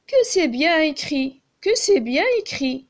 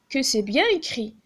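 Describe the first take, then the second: First: Exclamatory reading. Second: Said in the usual way. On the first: Shown as a demonstration. Teacher showing pupils an exclamation, admiring and raised. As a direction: sound delighted by "bien écrit". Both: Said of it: "يعني هذا تعجب".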